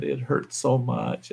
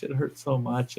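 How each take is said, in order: First: Soft, slow, whiny complaint; softly moaning wife, mocked; mock whining. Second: Much softer whimpering complaint; wife's moan trailing off softly; mock whining. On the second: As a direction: fade the moan down to almost nothing. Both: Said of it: "she's whining and bitching".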